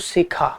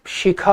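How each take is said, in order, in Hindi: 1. शब्द स ध्वनि से शुरू होता है। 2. शब्द श ध्वनि से शुरू होता है। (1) "तो ये स ही बोलते हैं" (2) "किसी का नाम शिखा होगा"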